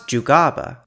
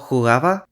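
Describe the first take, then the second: First: The g and b are hard, fully closed stops. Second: The g and b are soft, without full closure. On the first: "they would always be stops" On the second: "said as fricatives or approximant"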